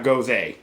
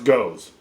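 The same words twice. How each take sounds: First: "gose" said with two syllables, GO-zuh; "gose" as go-zuh, the version he rejects; rejected pronunciation. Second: "goes" said like the English word goes, one syllable rhyming with nose; "goes" as plain goes, one syllable; correct pronunciation. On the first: Vaper contrasting the wrong beer name, go-zuh. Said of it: "not gose". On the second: Vaper correcting viewers on the beer name, plain goes. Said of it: "It is pronounced goes". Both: Shown as a demonstration.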